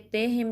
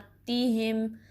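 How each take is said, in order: First: The first vowel sounds like a dull 'e'. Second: The first vowel sounds like a sharp 'i'. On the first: The speaker calls it wrong. "ते हिम नहीं पढ़ना" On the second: The speaker calls it right. "कसरा को शार्प रखेंगे"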